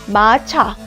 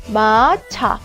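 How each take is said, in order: The two takes are said the same way.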